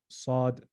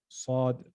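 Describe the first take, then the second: Both takes have the same delivery.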